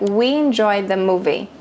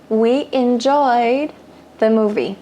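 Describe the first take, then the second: First: It is spoken quickly with the words run together. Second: It is spoken slowly with the words kept apart. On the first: "falado de forma mais corrida" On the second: "Eu tô falando de forma pausada"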